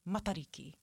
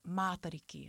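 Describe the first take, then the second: First: The first vowel is short and clipped. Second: The first vowel is drawn out and long. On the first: The speaker calls it right. "instead of like dragging out the A, it's mata, you know, like when you mutter a word" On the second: The speaker calls it wrong. "not matariki"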